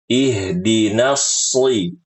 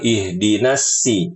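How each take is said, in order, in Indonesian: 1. Bunyi s-nya berat dan tebal. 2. Bunyi s-nya ringan dan tipis. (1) "ini yang benar" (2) "Bukan ihdinas si, bukan"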